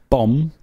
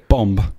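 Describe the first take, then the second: First: The word ends silently after the m. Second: The word ends with an added b sound.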